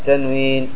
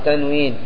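No difference in how they are said.

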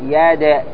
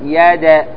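The two takes are said the same way.

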